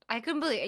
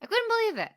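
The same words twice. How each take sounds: First: Said in the usual way. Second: High, loud burst of disbelief; shocked disbelief. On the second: Real, not acted. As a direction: blurt it out, stunned. Repeating disbelief, first take high.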